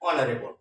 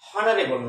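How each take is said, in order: First: The word begins directly with a vowel sound. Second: The word begins with a clear h sound. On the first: The speaker calls it right. "কনসোনেন্টের উচ্চারণ অনিচ্চারিত থেকে যাচ্ছে" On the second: The speaker calls it wrong. "না"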